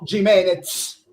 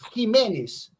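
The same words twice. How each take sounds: First: The name is said with an Italian pronunciation. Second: The name is said with a Spanish pronunciation. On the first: This is how Italians say the player's name. The speaker calls it wrong. "Los italianos" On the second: This is how the player's name really sounds. The speaker calls it right. "es Jiménez"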